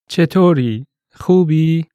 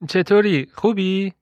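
First: It is said slowly and deliberately. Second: It is said at normal conversational speed.

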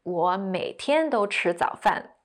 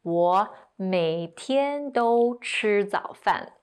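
First: It is said at normal speed. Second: It is said a bit more slowly.

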